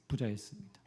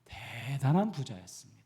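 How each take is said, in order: First: Said in the usual way. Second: 대단한 pressed, loud and falling; stress on 대단한. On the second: Shown as a demonstration. Preacher stressing 대단한 to the congregation. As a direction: lean on the word 대단한. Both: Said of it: "그냥 부자가 아니라".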